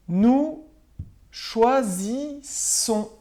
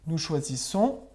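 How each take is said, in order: First: High, loud Nous, then choisissons drawn out very slowly; slow stressed dictation. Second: Said in the usual way. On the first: Shown as a demonstration. Teacher correcting homework for pupils, slow emphatic dictation. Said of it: "Nous choisissons, on garde le I". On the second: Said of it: "on garde le I".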